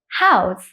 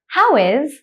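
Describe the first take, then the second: First: The two words are joined into one syllable. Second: The two words are said fully and separately.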